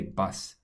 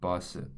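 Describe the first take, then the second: First: It is said with an English pronunciation. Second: It is said with a Korean pronunciation. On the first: The speaker calls it wrong. "you can't just say bus in Korean" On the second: The speaker calls it right. "So you actually have to say bus"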